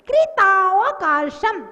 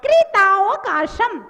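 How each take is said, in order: No difference in how they are said.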